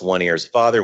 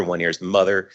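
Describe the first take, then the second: First: "father" given the weight, "one ear is" kept light; stress on father. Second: "mother" given the weight, "one ear is" kept light; stress on mother. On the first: Explaining a princess chart to the meetup, stress on "father". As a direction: land on "father" to set it against mother. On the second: Explaining a princess chart to the meetup, stress on "mother". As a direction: land on "mother" to set it against father. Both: Shown as a demonstration.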